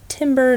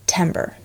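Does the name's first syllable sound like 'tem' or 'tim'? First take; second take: tim; tem. First: The first syllable sounds like 'tim', as in tin. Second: The first syllable rhymes with the 'tem' of September. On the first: The speaker calls it wrong. "not Timber" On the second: The speaker calls it right. "My full name is Timber, Like September, T-E-M-B-E-R"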